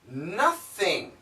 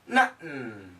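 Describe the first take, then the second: First: The middle consonant is fully pronounced. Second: The middle consonant is a glottal stop.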